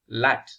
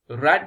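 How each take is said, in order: First: The word begins with an l sound. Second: The word begins with an r sound. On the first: "Rat becomes Lat" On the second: "Rat becomes Lat"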